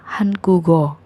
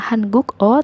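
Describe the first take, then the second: First: A G sound links smoothly into the o. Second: A K sound is followed by a separate o. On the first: The speaker calls it right. "tapi hangugo" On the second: The speaker calls it wrong. "bukan hanguk o"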